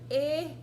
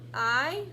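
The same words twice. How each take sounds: First: The word I has a different vowel sound. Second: The word I sounds like 'eye'. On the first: The speaker calls it wrong. "it's not ... That's the other sound for when you blend it" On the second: The speaker calls it right. "I'm gonna use the right pronunciation"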